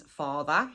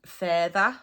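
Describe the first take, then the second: First: Said in the usual way. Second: FURTHER, the local "feyther" for father, with a front vowel. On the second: Shown as a demonstration. Teacher introduces word for father, FURTHER said "fay-ther". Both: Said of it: "Further means father".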